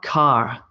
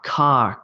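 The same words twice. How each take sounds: The two takes are said the same way.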